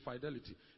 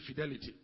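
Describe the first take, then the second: First: The word is said with an American pronunciation. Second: The word is said with an English pronunciation. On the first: "Americans say fidelity" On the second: "English people say fidelity"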